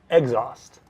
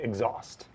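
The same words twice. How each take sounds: First: The stress is on the first syllable. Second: The stress is on the second syllable. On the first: The speaker calls it wrong. "I'm putting the stress on the first syllable rather than the second" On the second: The speaker calls it right. "the emphasis there is on the second syllable"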